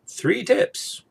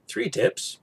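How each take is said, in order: First: Three tips, pitched up and rising brightly; peppy host voice going up at the end; upbeat announcement. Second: "three" stressed, higher, falling after; "three tips" with weight on three, in a mock continental manner; mock European version. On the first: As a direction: announce it like a cheery presenter. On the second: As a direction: lean on "three" like a stern European. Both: Shown as a demonstration. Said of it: "Or if you're in Europe".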